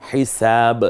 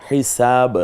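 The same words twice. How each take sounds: No difference in how they are said.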